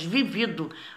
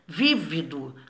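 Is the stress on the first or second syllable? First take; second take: second; first. First: The stress is on the second syllable. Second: The stress is on the first syllable. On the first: It means experienced, having lived a lot. "essa aí de baixo é paroxítona. Ela é forte na penúltima sílaba" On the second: It means lively, ardent, full of life. "É uma palavra proparoxítona"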